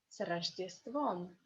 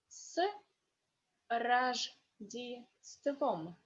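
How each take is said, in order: First: The phrase is said faster. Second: The phrase is said slowly. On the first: "second time is more fast" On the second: "First is slowly"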